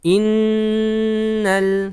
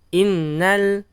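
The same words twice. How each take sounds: First: The n sound is held long and nasal. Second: The n sound is short and not held. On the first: The speaker calls it right. "ditahan dulu ... Agak lama ditahannya" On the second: The speaker calls it wrong. "jangan innal yang seperti itu"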